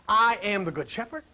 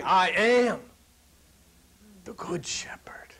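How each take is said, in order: First: "good shepherd" stressed, "I am" plain. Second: "I am" held apart, then "the good shepherd" whispered; stress on I AM. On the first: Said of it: "He wasn't saying". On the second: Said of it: "He's saying". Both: Shown as a demonstration.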